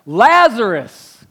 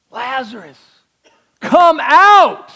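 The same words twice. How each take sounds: First: Slow loud calling of the name. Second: High, loud shout into the tomb; loud call. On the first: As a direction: call Lazarus loudly, drawn out. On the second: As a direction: shout him out of the grave. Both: Acted. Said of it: "called out in a loud voice".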